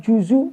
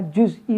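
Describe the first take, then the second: First: The z is followed by a u vowel. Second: The z is followed directly by a consonant.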